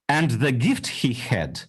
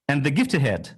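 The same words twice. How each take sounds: First: The h in 'he' is clearly pronounced. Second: The h in 'he' is dropped and linked. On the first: "I can say it with a Russian accent" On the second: "H will be dropping"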